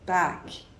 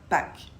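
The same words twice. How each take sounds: First: The A is longer and deeper. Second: The A is short and plain. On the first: "un A un peu plus long et un peu plus grave" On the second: "et non pas"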